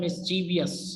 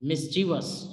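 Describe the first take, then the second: First: The word is said with four syllables. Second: The word is said with three syllables. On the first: The speaker calls it wrong. "Miss pronounce किया जाता है" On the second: The speaker calls it right. "Correct प्रोनाउंसिएशन"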